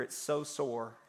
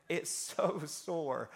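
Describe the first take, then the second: First: Said in the usual way. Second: "so" stretched long and slow; drawn-out SO. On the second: Real, not acted. Preacher complains of soreness after falling, stretching "so". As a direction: draw out "so" with a little laugh.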